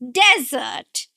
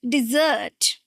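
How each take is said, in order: First: The stress is on the first syllable. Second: The stress is on the second syllable. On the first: It means a dry, sandy region. "this is where we are going to stress the first syllable" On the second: It means a sweet course after a meal. "the stress is on the second syllable"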